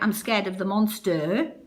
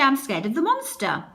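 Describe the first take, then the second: First: Monster ends with a full, drawn-out 'er' vowel. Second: Monster ends with a short, weak 'uh' vowel. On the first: The speaker calls it wrong. "they'll say that's an er, but you don't say monster" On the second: The speaker calls it right. "that's how we say it. And this is actually schwa"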